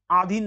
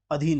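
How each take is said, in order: First: आधीन as "aadheen"; wrong long a. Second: अधीन as "adheen", short first vowel. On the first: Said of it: "आधीन नहीं होता है". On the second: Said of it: "अधीन होता है". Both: Shown as a demonstration.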